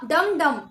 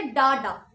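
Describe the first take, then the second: First: डम डम as two slow, loud equal beats; two spaced heavy beats, डम डम; both strong. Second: डा डा as two light, equal beats; two easy beats, no punch on either डा; both soft. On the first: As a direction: punch each डम with the same force. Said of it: "both are strong". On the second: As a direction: keep both डा unstressed and even. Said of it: "both are soft". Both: Shown as a demonstration.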